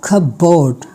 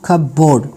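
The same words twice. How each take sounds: Both takes have the same delivery.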